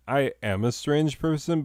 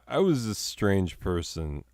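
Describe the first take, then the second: First: "am" emphasized in a higher-pitched correction; "am" stressed against the past tense. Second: Said in the usual way. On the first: Real, not acted. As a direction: lift the pitch and lean on "am".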